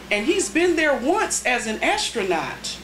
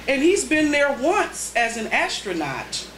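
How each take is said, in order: Both takes have the same delivery.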